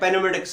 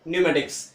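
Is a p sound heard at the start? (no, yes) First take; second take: yes; no. First: A p sound is spoken at the start. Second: No p sound is spoken at the start. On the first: The speaker calls it wrong. "या पेनोमेटिक्स नहीं करेंगे" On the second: The speaker calls it right. "पी का उच्चारण नहीं होगा"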